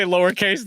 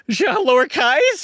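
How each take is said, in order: First: Said in the usual way. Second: Higher, drawn-out British lowercase, as a question; mock British accent. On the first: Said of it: "I could almost say lowercase there". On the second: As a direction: play up British vowels on lowercase. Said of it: "you became British there for a minute".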